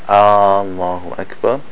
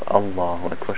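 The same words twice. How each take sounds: First: The opening vowel is drawn out long. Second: The opening vowel is short with a firm stop. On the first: It asks whether Allah is the greatest. The speaker calls it wrong. "then it means, is Allah the greatest?" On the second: It states that Allah is the greatest. The speaker calls it right. "Shidda, the strongness of the Hamza"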